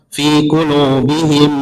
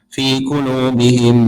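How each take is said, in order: Both takes have the same delivery.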